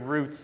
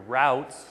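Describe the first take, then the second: First: The vowel sounds like the one in boot. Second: The vowel sounds like the one in out. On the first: The speaker calls it wrong. "sorry, we're close to Texas" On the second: The speaker calls it right. "I'm going to pronounce it properly"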